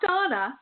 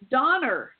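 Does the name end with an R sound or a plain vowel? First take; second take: plain vowel; R sound. First: The name ends with a plain vowel. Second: The name ends with an R sound. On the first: This is the usual pronunciation of the name. "not Donna" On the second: This is how the caller pronounced the name. "he would pronounce his A at the end like an R"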